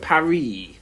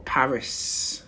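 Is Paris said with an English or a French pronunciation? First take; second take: French; English. First: It is said with a French pronunciation. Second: It is said with an English pronunciation. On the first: "the French call it Paris" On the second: "as the English will call it"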